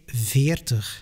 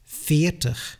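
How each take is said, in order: First: The V sounds voiced, like a true V. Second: The V sounds voiceless, close to an F. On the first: This is the textbook pronunciation. "If you say veertig, it is absolutely not a problem" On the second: This is how native speakers casually say it. "with a voiceless consonant ... just like the Dutch"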